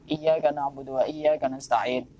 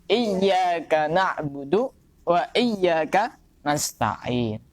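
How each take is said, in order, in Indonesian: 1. Huruf y pada iyyaka dibaca pendek, tidak ditahan. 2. Huruf y ganda pada iyyaka dibaca panjang. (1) "Kadang-kadang bacanya itu" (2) "Itu harus benar-benar ditekan"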